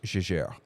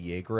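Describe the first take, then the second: First: The name is pronounced with French sounds. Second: The name is pronounced with English sounds. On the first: "if you were to go to Switzerland, that's how they'd pronounce it" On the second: "depending on who trains who in like Britain or the U S"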